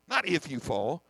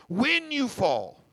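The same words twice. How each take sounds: First: "not if you fall" with NOT stressed and a rising tune; contrast: "not if you fall", NOT hit. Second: "when you fall" slow and higher, WHEN leaned on; "when you fall" slowed, the WHEN pressed hard; stress on WHEN. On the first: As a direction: set NOT against the other take. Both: Shown as a demonstration.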